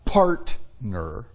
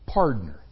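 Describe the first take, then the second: First: The middle consonant is a clear T sound. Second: The middle consonant is a D sound. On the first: "Not partner" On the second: "pardner. P-A-R-D-N-E-R"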